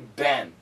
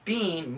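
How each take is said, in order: First: The vowel is short, like 'Ben'. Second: The vowel is long, like 'bean'. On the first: The speaker calls it right. "We usually say Ben" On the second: The speaker calls it wrong. "We don't say bean"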